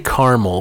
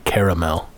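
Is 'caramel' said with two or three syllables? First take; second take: two; three. First: The middle vowel is dropped, giving two syllables. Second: The middle vowel is kept, giving three syllables. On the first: The speaker calls it wrong. "I say caramel, which can't be right because there's an extra A in the middle" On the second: The speaker calls it right. "It's got to be caramel"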